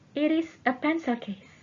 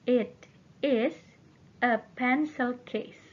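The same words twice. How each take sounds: First: The sentence is said at a faster pace. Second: The sentence is said at a slower pace.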